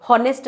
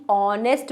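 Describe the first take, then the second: First: हॉनेस्ट opening with an h; wrong sounded h. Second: ऑनेस्ट starting on the vowel "o"; vowel-first ऑनेस्ट, h dropped; correct silent h. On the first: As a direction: say हॉनेस्ट with the h pronounced. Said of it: "हॉनेस्ट नहीं बोल रहे हैं". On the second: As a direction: say ऑनेस्ट with no h at all. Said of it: "ऑनेस्ट बोल रहे हैं". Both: Shown as a demonstration.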